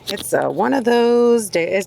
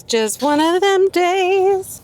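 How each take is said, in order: First: Said in the usual way. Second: Jokey high voice complaining about her day; put-on folksy voice. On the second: Shown as a demonstration. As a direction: ham up the weary saying. Repeats phrase in put-on voice.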